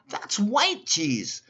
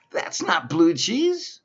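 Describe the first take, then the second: First: "white" held long, very slow and much higher; stress on white. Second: "blue" leaned on in a slow, much higher, louder line; stress on blue. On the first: To the Walmart clerk, dragging out "white" in slow contrast. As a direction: spell out "That's white cheese" and stretch "white". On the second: To the Walmart clerk, slowly stressing "blue". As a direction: drag out "that's not blue cheese" and punch "blue". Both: Retold or imitated. Correcting the clerk about cheese.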